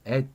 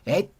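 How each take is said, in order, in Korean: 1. 이 단어는 가볍고 부드럽게 말해요. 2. 이 단어는 강하게 힘을 주어 말해요. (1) "그냥 at 살짝" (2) "그렇게 힘주지 말고"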